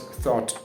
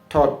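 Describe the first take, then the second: First: A clear th sound is pronounced. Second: The th sound is replaced by another sound. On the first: The speaker calls it right. "when I pronounce the th sound correctly" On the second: The speaker calls it wrong. "If I don't pronounce the th sound"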